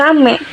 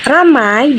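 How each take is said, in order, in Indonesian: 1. Vokal akhir hanya satu bunyi vokal biasa. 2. Vokal akhir meluncur di antara dua bunyi vokal.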